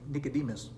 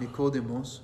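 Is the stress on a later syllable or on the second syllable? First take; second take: later; second. First: The stress is on a later syllable. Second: The stress is on the second syllable. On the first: "or we say in the West, Americans" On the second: "the name Nicodemus has his accent on the second syllable"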